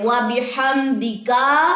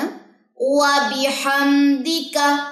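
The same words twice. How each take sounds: First: The final syllable has a drawn-out vowel. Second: The final syllable has a short vowel. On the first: The speaker calls it wrong. "अगर ऐसे पढ़े व बिहम्दिका तो ये गलत हो जाएगा" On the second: The speaker calls it right. "इस काफ की जबर को लंबा नहीं करना।"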